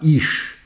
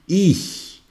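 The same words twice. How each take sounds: First: The ch sounds like a French sh. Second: The ch sounds like a soft hiss. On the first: The speaker calls it wrong. "ne dites pas ich" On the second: The speaker calls it right. "dites ich"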